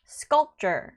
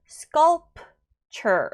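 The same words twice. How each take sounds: First: The p only stops the air, unreleased. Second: The p is released with a clear puff. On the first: The speaker calls it right. "이 p는 이 공기를 차단하는 정도의 소리" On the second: The speaker calls it wrong. "p 발음을 주게 되면 틀린 발음입니다"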